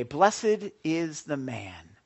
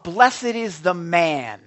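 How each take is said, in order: First: Verse read low, very slowly; slow recitation. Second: Verse proclaimed loud and drawn out; loud proclamation. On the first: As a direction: space out each word of the verse. Repeats verse more slowly and calmly. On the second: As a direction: announce the scripture at full preaching volume. Proclaims verse, then repeats it slower. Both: Real, not acted.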